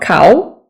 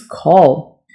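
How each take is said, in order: First: The word ends without an 'l' sound. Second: The word ends with a clear 'l' sound. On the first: The speaker calls it wrong. "It's not cow" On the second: The speaker calls it right. "It's call"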